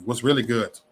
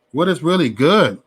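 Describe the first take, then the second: First: Said in the usual way. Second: Every word separated, "good" hit louder; full "what is", louder and more pointed; emphatic challenge. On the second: Retold or imitated. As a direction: spell it out, punching "good".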